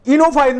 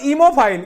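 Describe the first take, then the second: First: "Enophile" said ee-no-file, with a clear n; correct n sound. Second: "emophile" said ee-mo-file, with m for n; wrong m sound. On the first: Teacher corrects a student's spelling, stressing the n. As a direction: say "Enophile" with n in the middle. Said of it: "ये एन है". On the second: Teacher shows the student's error, m for n. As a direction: say "emophile" with m in the middle. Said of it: "not emophile". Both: Shown as a demonstration.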